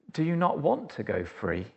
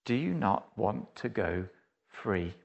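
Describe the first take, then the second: First: Quiet guard's question. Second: Much lower and softer, sinking to a hush; soft earnest appeal. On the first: Acted. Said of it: "and goes". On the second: Real, not acted. Preacher asking the congregation directly, low and hushed. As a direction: let the question land gently on each listener. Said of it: "the question that Jesus asks to all mankind".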